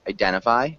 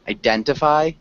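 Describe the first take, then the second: First: The T sound is dropped. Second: The T sound is clearly pronounced. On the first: This is the common, faster everyday form. "oftentimes we will swallow that T" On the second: This is the more correct but less common form. "if you want to be more correct"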